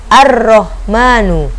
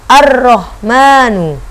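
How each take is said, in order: The two takes are said the same way.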